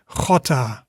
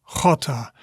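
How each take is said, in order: Both takes have the same delivery.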